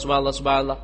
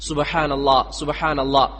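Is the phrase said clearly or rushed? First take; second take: rushed; clearly. First: The words are rushed together and unclear. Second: The words are said slowly and distinctly. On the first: The speaker calls it wrong. "അതല്ല നബി സല്ലല്ലാഹു അലൈഹി വസല്ലം പഠിപ്പിച്ചത്" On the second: The speaker calls it right. "വ്യക്തമായിട്ട്"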